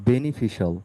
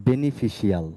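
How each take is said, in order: The two takes are said the same way.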